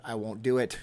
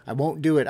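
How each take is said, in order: First: Said in the usual way. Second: Louder, higher, emphatic no; firm refusal. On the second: Real, not acted. Vlogger repeating his refusal more firmly. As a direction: dig in and refuse. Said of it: "I'm gonna be like Jon Snow".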